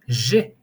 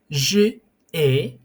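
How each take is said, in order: First: The pronoun's vowel is dropped and joined to 'ai'. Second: The pronoun's vowel is said separately before 'ai'. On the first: The speaker calls it right. "we use elision" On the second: The speaker calls it wrong. "it sounds a little bit off"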